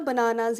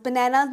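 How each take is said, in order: First: "bananas" said ba-NAA-naz; long open aa in middle of "bananas"; correct bananas. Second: "bananas" said ba-NAE-naz; flat a of "cat" in middle of "bananas"; wrong bananas. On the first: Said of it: "bananas ही होता है". ("bananas" को "बनानाज़" जैसा बोलें) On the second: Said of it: "bananas नहीं होता". ("bananas" को "बनैनाज़" जैसा बोलें) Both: Shown as a demonstration.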